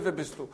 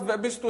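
First: Lower, softer repeat; retold reply. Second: Said in the usual way. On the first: Son tells mother of mocking voice, lower echoed reply. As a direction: echo the question back, toned down. Sagt er mir.

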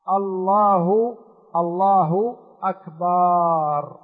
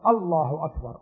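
First: Slow الله أكبر with the ba in أكبر stretched into أكبار; drawn-out ba. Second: Said in the usual way. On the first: Shown as a demonstration. Teacher demonstrates the faulty stretched أكبر. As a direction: drag the ba of أكبر long. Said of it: "يمد الباء ويأتي بألف بعدها". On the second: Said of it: "المطلوب أن تقول أنت عن يقين وجزم".

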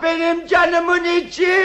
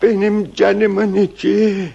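First: High, raised-voice endearment; shouting. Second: Slow, subdued and doting; tender endearment. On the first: Husband with cap over his ears to wife, unwittingly shouting. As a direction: call it out as if you cannot hear yourself. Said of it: "Ne diye bağırıyorsun yavrucuğum?". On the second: Husband to wife after ears are uncovered, tender. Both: Acted.

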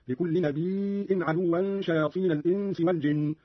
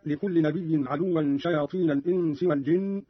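First: نبي with long ii closed by hamza; hamza in nabi'. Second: Said in the usual way. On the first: Shown as a demonstration. Teacher shows Qalun's reading, نبي pronounced nabii'in. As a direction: say نبي as nabii' with a glottal stop. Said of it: "بهمز الياء من النبأ". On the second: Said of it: "قرأ قالون بهمز الياء".

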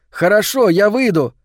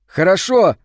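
First: Even higher and louder, eager; cheerful agreement. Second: Higher and louder, gladly agreeing; cheerful agreement. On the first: Boy eagerly tells the girl he's coming out, higher and louder. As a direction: jump at the chance. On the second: Boy gladly agrees to go outside with the girl, higher and louder. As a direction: say yes with delight. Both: A narrator's reading. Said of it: "весело согласился он".

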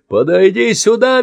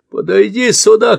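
First: Much higher, louder screech; shrieking command. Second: Much higher, louder command; shout. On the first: Man screeches at Andy to come over. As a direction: screech the order. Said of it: "визжит мужчина". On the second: Man orders Andy over, shouting. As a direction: bellow at the boy to come. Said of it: "кричит мужчина". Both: Acted.

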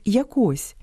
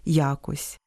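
First: ЯкО́СЬ, final syllable stressed; stress on last syllable. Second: Я́кось, opening syllable stressed; stress on first syllable. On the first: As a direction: say якось stressing КОСЬ. (наголос на другому складі: яко́сь) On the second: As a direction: say якось stressing Я. (наголос на першому складі: я́кось) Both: Shown as a demonstration. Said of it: "має і паралельний наголос".

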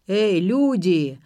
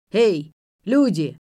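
First: Put-on slow, loud drunken call; a drunk calling out from the kitchen. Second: Put-on slow, loud drunken call; a drunk bellowing for company. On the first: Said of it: "раздался из кухни пьяный голос". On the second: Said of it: "пьяный голос". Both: A narrator's reading.

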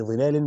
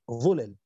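First: ظلال with "i" then long alif, ẓilāl; kasra on the ظ. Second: ظلل with a short "u", ẓulal; damma on the ظ. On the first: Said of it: "وكسر الظاء على جمع ظل". (ظلال بكسر الظاء وبالألف) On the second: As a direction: say ظلل as ẓulal, no long alif. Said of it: "بضم الظاء من غير ألف". (ظلل بضم الظاء من غير ألف) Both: Shown as a demonstration.

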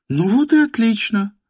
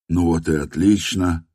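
First: «Ну вот и отлично» in a much higher woman's voice. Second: Said in the usual way. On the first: A narrator's reading. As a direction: say «Ну вот и отлично» as her, pitched high. («Ну вот и отлично» женским голосом)

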